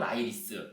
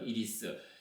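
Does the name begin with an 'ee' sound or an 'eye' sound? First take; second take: eye; ee. First: The name begins with an 'eye' sound. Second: The name begins with an 'ee' sound.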